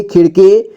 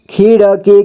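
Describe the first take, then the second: First: Said in the usual way. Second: खिड़की as खि-ड़-की; syllable by syllable. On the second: Shown as a demonstration. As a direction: sound out खिड़की in three parts. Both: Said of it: "एक ही बार में पढ़ेंगे".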